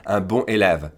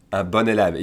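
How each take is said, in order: First: "bon" kept nasal, cut off from "élève"; broken-up mispronunciation. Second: "bon élève" flowing as one word, "bonn-élève"; liaison, like the feminine. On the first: Teacher imitating learners' tempting mistake, words broken up without liaison. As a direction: leave the n of "bon" silent, no link to "élève". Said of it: "but it sounds wrong". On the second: Teacher modelling for learners, linked like the feminine. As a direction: sound the n of "bon" straight into "élève". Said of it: "pronounce it like the feminine". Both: Shown as a demonstration.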